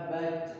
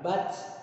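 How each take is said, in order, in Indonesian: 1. Konsonan akhir terdengar seperti 'ch'. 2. Konsonan akhir diakhiri dengan hembusan udara yang mendesis. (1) "Ini bukan dibaca baca. Salah" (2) "mirip dengan suaranya rem angin ... Ada s-nya di belakang"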